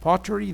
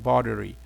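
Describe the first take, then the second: First: It is said in a British accent. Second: It is said in an American accent. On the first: "This is the British pronunciation" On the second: "The American one"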